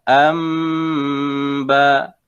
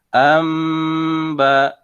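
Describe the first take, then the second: The two takes are said the same way.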